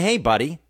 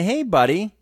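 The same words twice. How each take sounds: First: It is said in a wary, confrontational tone. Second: It is said in a warm, friendly tone. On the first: The listener is a stranger who is not welcome. "buddy has kind of a negative meaning" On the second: The listener is a friend being greeted. "that means, hello, how are you? What's new?"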